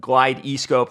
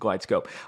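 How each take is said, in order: First: It is said with three syllables. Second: It is said with two syllables. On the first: The speaker calls it wrong. "No, it's not pronounced that way" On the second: The speaker calls it right. "It's a Glide scope"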